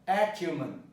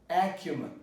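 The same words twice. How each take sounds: The two takes are said the same way.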